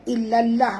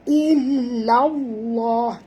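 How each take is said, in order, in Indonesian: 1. L dalam Allah terdengar tipis dan ringan. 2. L dalam Allah terdengar tebal dan berat. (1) "Jangan baca illallah pula ya" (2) "tebal ya"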